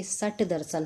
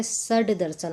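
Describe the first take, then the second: First: सट दर्शन with a hard t ending सट; voiceless retroflex t in सट; wrong consonant demo. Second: सड दर्शन with a voiced d ending सड; correct consonant demo. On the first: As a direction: say "sat-darshan" for सट दर्शन. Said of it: "ना कि सट दर्शन होगा". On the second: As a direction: say "sad-darshan" for सड दर्शन. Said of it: "यहाँ पे सड दर्शन होगा". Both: Shown as a demonstration.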